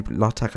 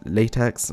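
First: LaTeX said LAH-tek; alternative pronunciation. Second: Latex said LAY-teks; alternative pronunciation. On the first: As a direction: say "LaTeX" with an open AH, ending on k. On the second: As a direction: say "latex" with a long AY and final ks. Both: Shown as a demonstration. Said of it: "however you pronounce it".

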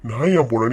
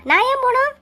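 First: Low, sneering echo of her line with weight on நான்; low mock echo stressing நான்; mocking mimic. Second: High, outraged question; shocked high retort on போணும்; indignant. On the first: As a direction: parrot her words back in a deep mocking tone. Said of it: "mocking her question". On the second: Acted. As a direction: fire back in disbelief at being thrown out. Wife defies eviction.

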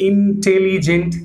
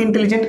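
First: इंटेलिजेंट broken slowly into separate syllables. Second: Said in the usual way. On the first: Shown as a demonstration. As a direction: sound out इंटेलिजेंट one syllable at a time. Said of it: "तीन syllable से बना हुआ है". (इंटेलिजेंट को एक-एक syllable तोड़कर बोलें) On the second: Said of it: "इंटेलिजेंट का सिलेबल एक से ज़्यादा".

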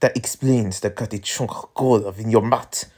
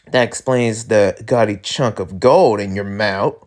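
First: French character accent. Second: Said in the usual way. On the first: Shown as a demonstration. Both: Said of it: "wrong accent".

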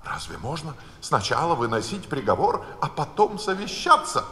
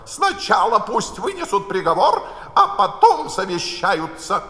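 First: Alice's incredulous question, rising high on "совещаться"; Alice protesting in disbelief; a mild indignant outcry; indignant exclamation. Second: Higher and louder, imperious order; the Queen dictating loudly to the court; bossy raised royal voice; commanding Queen. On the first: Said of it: "воскликнула Алиса". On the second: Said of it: "крикнула королева". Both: A narrator's reading.

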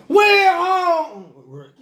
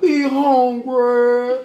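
First: High, loud, slow crying wail on "We hungry", "We" dragged out; loud wailing plea. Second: Drawn-out, pleading "We hungry" with the "We" stretched long; slow hungry plea. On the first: Showing how the boys really beg, loud slow wail. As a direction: stick your head out and wail "We hungry". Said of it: "You gotta stick your head out like". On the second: Imitating barbershop boys begging for food, stretched slowly. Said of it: "No, I ain't saying it right". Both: Retold or imitated.

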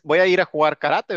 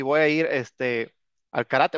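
First: Said in the usual way. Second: Drawn out and hesitant; slow, unsure phrasing; slowed, halting. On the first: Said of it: "Porque no dices". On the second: Shown as a demonstration. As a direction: stretch it slowly with a pause. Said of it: "pero lo correcto es".

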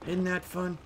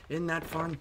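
No difference in how they are said.

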